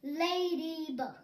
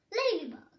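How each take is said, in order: First: Ladybug drawn out slowly, each syllable held; slow model word for children. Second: Ladybug said quickly, syllables run together. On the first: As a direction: stretch Ladybug out slowly for the class. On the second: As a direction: snap out Ladybug fast for the class. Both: Shown as a demonstration. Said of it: "Các bạn nói nhanh hơn nhé".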